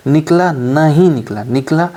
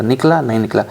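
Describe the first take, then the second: First: Slow, emphatic "निकला, नहीं निकला" with a rising end; drawn-out emphasis. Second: Said in the usual way. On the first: Shown as a demonstration. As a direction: stretch "निकला, नहीं निकला" slowly, leaning on each word. Last check, drawn out for effect.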